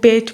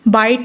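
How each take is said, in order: First: The vowel is raised, sounding close to 'bet'. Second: The vowel is the plain open 'eye' sound. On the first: "वो बेट बोलेंगे" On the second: "बाइट नहीं वो बोलेंगे"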